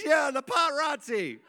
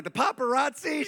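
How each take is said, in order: First: Put-on high little-girl voice insisting on "paparazzi"; wailing child. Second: "paparazzi" pitched high as a puzzled question; incredulous echo. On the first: Daughter insisting to dad on "paparazzi", high childish wail. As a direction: imitate an upset kid confirming "paparazzi", pitched way up. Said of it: "and she started crying". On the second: Retold or imitated. Dad querying his daughter's word "paparazzi", high incredulous question. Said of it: "And I was like".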